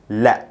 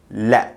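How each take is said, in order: The two takes are said the same way.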